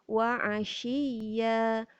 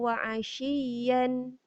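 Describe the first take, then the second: First: The last word ends on a long open vowel. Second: The last word ends with an n sound. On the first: The speaker calls it right. "Kita baca ya saja" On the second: The speaker calls it wrong. "maknanya salah"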